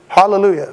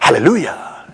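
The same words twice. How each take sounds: First: It is said flatly, without energy. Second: It is said with lively exuberance.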